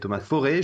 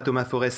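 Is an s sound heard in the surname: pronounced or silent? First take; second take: silent; pronounced. First: The surname is said with no s sound. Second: The surname is said with an audible s sound. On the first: The speaker calls it right. "c'est Thomas Forêt" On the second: The speaker calls it wrong. "c'est pas Thomas Forest"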